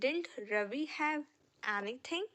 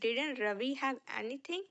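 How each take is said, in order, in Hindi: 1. 'Didn't' को एक तेज़ अक्षर में छोटा कर दिया जाता है। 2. 'Didn't' को दोनों अक्षरों के साथ पूरा बोला जाता है। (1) "एडवांस में ना हम डिंट पढ़ते हैं।" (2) "डिड नॉट को हम डिडंट करके बोल सकते हैं।"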